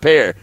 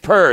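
First: The word is said with a standard 'pair' vowel. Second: The word is said with a country 'per' vowel. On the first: The speaker calls it wrong. "It's not pair" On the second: The speaker calls it right. "Because you got to have that country grammar, so it's per"

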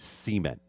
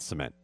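First: It is said the Mississippi way. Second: It is said the standard way. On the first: "the most Mississippi thing you have ever said" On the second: "not cement"

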